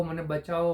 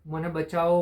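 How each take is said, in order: First: Said in the usual way. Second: A mild mock cry for help, a bit louder; calling for help. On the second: Trapped cup calling from inside the oven, mild mock yell. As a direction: call out for rescue in a storyteller's half-shout. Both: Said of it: "અંદરથી મદદ માટે બૂમો પાડતો રહ્યો".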